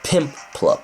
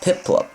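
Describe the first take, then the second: First: The name has an m sound in the middle. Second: The name has no m sound in the middle. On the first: The speaker calls it wrong. "not not Pimplup" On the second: The speaker calls it right. "I'm gonna switch train to Piplup"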